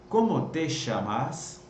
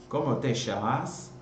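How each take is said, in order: First: The ll is said like sh, Buenos Aires style. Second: The same.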